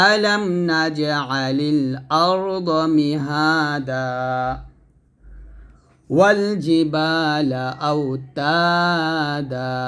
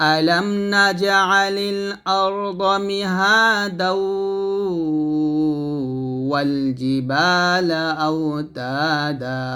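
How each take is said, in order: First: The verse is recited with stops between phrases. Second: The verse is recited joined without stopping.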